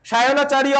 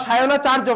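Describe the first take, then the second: First: সায়নাচার্য with final "-riyo"; Sanskrit pronunciation. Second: সায়নাচার্য ending in "-charjo"; Bengali pronunciation. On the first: Teacher models the Sanskrit name for pupils, Sanskrit pronunciation. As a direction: sound the য in সায়নাচার্য as "iyo". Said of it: "অন্তঃস্থীয় জ থাকলে আমি কি উচ্চারণ করতে বলছি". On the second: Teacher gives the class the Bengali form, Bengali pronunciation. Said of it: "বাংলায় উচ্চারণ করলে সায়নাচার্য". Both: Shown as a demonstration.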